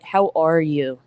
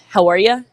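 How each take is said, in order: First: It sounds warm and caring, like a real question. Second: It sounds quick and offhand, like a greeting. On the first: The asker truly wants to know how you are. The speaker calls it right. "a genuine, I think, ask" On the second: It is only a greeting, not a real question. The speaker calls it wrong. "that's like another kind of greeting"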